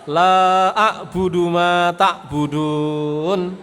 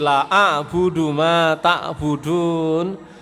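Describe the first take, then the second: First: The vowel in the first word is long. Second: The vowel in the first word is short. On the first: It denies worshipping what others worship. The speaker calls it right. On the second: It turns the verse into a statement of idolatry. The speaker calls it wrong.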